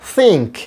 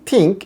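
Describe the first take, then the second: First: It begins with a soft friction sound. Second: It begins with an aspirated stop sound. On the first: The speaker calls it right. "থয়ের জায়গায় সা বললে কি হয়" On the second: The speaker calls it wrong. "আমরা বলি থিঙ্ক, এটা ভুল বলি"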